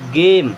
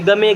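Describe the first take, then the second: First: Long ay vowel and the final e is silent. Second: Short a vowel and the final e is sounded. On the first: The speaker calls it right. "क्या पढ़ेंगे? गेम" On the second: The speaker calls it wrong. "इसे गमे नहीं पढ़ेंगे"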